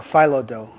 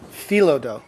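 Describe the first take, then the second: First: "phyllo" said FIE-lo, long i sound; "phyllo" as fye-loh dough. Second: "Phyllo" said FEE-lo, long ee sound; "Phyllo" as fee-loh dough. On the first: To the child, trying the other way to say it: "phyllo" as fye-loh. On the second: To the child, trying one way to say it: "Phyllo" as fee-loh. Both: Shown as a demonstration. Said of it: "How do you say it?".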